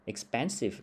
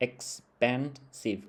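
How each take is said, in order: First: Said in the usual way. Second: "expensive" slowly split into ex-pen-sive; syllable by syllable. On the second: Shown as a demonstration. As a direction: break "expensive" into three separate beats, ex, pen, sive. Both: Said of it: "มีสามพยางค์".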